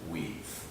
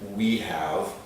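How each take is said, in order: First: The words are contracted into one syllable. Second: Both words are said in full.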